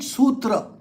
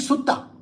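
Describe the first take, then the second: First: The middle has a t followed by an r. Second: The middle sounds like a double t, no r. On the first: This is the Sanskrit way of saying it. The speaker calls it right. "We call it sutra. ... our pronunciations are perfect" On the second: This is how Buddhists say it. The speaker calls it wrong. "They call it sutta. ... they are lisping"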